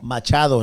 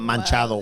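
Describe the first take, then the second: First: The first syllable has no n sound. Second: The first syllable has an added n sound. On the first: The speaker calls it right. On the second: The speaker calls it wrong. "not Manchado"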